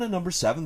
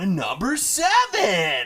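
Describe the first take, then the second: First: The voice is livelier, with more energy than before. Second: The voice is very excited, with the most energy.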